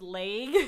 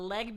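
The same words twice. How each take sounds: First: The word is said in a Californian accent. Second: The word is said in a plain accent.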